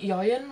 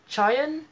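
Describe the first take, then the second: First: The name begins with a 'y' sound. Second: The name begins with a 'ch' sound. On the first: The speaker calls it wrong. "I think I'm saying Yoyun, right?" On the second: The speaker calls it right. "I think it might be more like Chayun"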